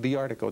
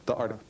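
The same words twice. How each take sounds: First: 'The' is said with a long 'thee' vowel. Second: 'The' is said with a short 'thuh' vowel. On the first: The speaker calls it right. "the should be pronounced the in front of vowels" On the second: The speaker calls it wrong. "The article is hard to say"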